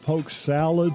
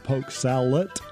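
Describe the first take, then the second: First: The second word ends with a D sound. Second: The second word ends with a T sound.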